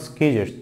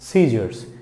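First: The c is sounded as a k. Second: The c is silent. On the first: The speaker calls it wrong. "not scissors" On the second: The speaker calls it right. "it's scissors"

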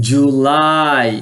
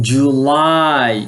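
The two takes are said the same way.

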